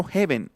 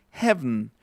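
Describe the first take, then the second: First: 'heaven' as HE-ben, full second e; wrong, spelled pronunciation. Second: 'heaven' as HEV-n; reduced final vowel. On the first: Teacher showing the mistake, 'heaven' with a clear final e. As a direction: sound both vowels of 'heaven'. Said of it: "No estoy pronunciando heaven". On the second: Teacher showing his own version, 'heaven' ending in bare vn. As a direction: swallow the second e in 'heaven'. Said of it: "estoy pronunciando heaven". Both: Shown as a demonstration.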